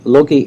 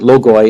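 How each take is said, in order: First: The word is said with a non-classical pronunciation. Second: The word is said with the classical pronunciation.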